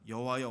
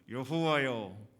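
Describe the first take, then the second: First: It is read plainly without emotion. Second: It is said with heated, angry emotion. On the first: "이렇게 우리가 읽었지만" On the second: "조금 더 감정을 넣어서 읽으면 이렇게 기도한 거예요"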